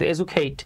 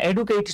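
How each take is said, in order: First: The middle consonant is a j sound. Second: The middle consonant is a plain d sound. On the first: The speaker calls it right. "কিন্তু এজুকেট" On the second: The speaker calls it wrong. "এডুকেট না"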